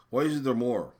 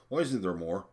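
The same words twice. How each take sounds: First: "Why isn't there more?" again, higher and louder, stressing "isn't"; indignant louder repeat; pushed repeat. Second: Said in the usual way. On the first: Real, not acted. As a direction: hit "isn't" hard on the repeat. Repeats question, second time pushed.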